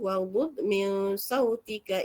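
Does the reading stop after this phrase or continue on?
continues. The phrase runs on into the next words, vowel kept. The reader carries on without pausing. "kalau nak sambung"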